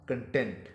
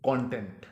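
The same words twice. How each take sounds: First: कंटेंट as kən-TENT, stress on the second syllable; adjective "content". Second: कंटेंट stressed on the first syllable, KON-tent; noun "content". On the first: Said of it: "बदलकर हो जाएगा". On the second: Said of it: "इसका तलफ़्फ़ुज़ होगा". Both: Shown as a demonstration.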